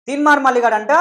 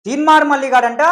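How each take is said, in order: Both takes have the same delivery.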